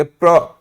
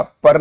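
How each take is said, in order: First: "प्र" with p and r joined; correct cluster pra. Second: "पर" with the vowel before the r; wrong syllable par. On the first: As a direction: say "प्र" as "pra", vowel after the r. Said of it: "हम लोग बोलेंगे प्र". ("प्र" में प और र जुड़े हुए) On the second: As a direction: say "पर" as "par", no consonant cluster. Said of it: "देखिएगा पर नहीं बोलेंगे". ("पर" में र बाद में, अलग से) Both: Shown as a demonstration.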